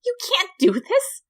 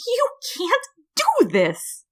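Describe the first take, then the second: First: High frantic protest rising; first cry, pitched up and rising; frantic Flowey. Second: High, slow, drawn-out wail; slower desperate Flowey. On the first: Flower protests to the human, high and frantic. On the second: Flower pleads with the human, high and slow. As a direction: stretch the second cry out desperately. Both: A narrator's reading.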